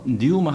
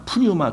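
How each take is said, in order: First: The word begins directly with an n sound. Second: The word begins with an audible p sound. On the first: The speaker calls it right. "뉴마 하는 게 맞아요" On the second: The speaker calls it wrong. "푸뉴마 푸뉴마 그랬는데 그 앞에 피가 묵음이로 나와요"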